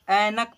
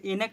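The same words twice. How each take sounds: First: ऐनक with an open ai vowel; correct reading. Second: एनक read with a plain short e sound; wrong reading. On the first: Teacher showing children the correct reading, ऐनक with ai. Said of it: "ऐनक पढ़ेंगे". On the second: Teacher showing children the wrong reading, एनक with e. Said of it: "इसे एनक नहीं पढ़ेंगे". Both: Shown as a demonstration.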